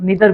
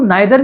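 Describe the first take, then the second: First: The first vowel sounds like 'ee'. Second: The first vowel sounds like 'eye'. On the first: "या फिर नीदर भी पढ़ सकते हैं" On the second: "इसको नाइदर भी पढ़ सकते हैं"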